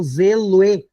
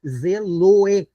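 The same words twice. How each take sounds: First: "zeloe" slowly, with "loe" as one syllable; vowels run together. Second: "zeloe" broken into "ze" and a joined "loe"; syllable-by-syllable elision. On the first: Teacher scanning the second verse, vowels run together. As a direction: glide the end of "zeloe" into a single syllable. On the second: Teacher repeating the example for students, syllable by syllable. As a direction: separate "ze", then say "loe" in one piece. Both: Shown as a demonstration. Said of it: "o loe eu pronuncio junto".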